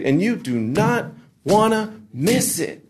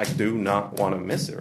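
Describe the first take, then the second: First: High, slow, drawn-out mock hype; emcee hype. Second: Said in the usual way. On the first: Emcee teasing next week's series, exaggerated slow hype. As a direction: stretch each word like a promo host. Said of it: "It's like we talk different".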